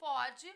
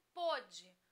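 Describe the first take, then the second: First: Pode with an open, stressed O as in present tense. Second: Pôde with a closed, rounded O as in past tense; pôde said slowly with closed O. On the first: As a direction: stress pode's first syllable with an open vowel. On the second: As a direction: draw out pôde's closed first vowel. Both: Shown as a demonstration. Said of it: "A pronúncia também ajuda".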